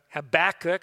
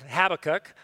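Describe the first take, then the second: First: "Habakkuk" stressed on the middle syllable; alternative pronunciation. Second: "Habakkuk" stressed on the first syllable; alternative pronunciation. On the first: Preacher trying out the prophet's name, middle-stressed. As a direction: say "Habakkuk" as huh-BACK-uk. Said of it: "if you've ever said it before". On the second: Preacher trying out the prophet's name, front-stressed. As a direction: say "Habakkuk" as HAB-uh-kuk. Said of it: "how you've, if you've ever said it". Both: Shown as a demonstration.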